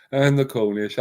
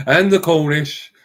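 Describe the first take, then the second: First: Said in the usual way. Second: "the Cornish" said slowly, louder and higher, weight on "the"; correcting himself, he lands "And the Cornish" slow and loud; emphatic correction. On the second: Shown as a demonstration. Ranter fixing his slip, stressing "And the Cornish" slowly and loudly.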